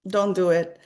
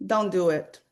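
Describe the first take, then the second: No difference in how they are said.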